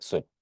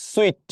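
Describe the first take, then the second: First: Said in the usual way. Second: sweet lifted sharply high and louder; high pitch. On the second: Shown as a demonstration. Teacher demonstrating the odd word to the class, high pitch. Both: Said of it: "একটু high pitch".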